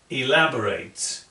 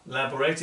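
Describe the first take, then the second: First: The first syllable sounds like the letter E. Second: The first syllable sounds like the letter L. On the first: The speaker calls it right. "We say the letter E" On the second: The speaker calls it wrong. "It is not L"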